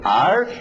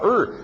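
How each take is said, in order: First: The word is said in its full form. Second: The word is said as a short reduced sound. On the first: The speaker calls it wrong. "As pessoas são ensinadas are e is. Mas ninguém fala are e is" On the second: The speaker calls it right. "Queremos simplificar, falamos só er"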